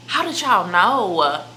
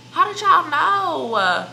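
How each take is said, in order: First: Slow, a touch louder, feigned astonishment; mock surprise. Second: Much higher, louder and slow, mock astonished; hammed-up shock. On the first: Teasing viewers about pregnancy rumors, in mock surprise. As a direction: act shocked that they guessed. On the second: Teasing viewers about pregnancy rumors, in hammed-up shock. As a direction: squeal it like the secret's out.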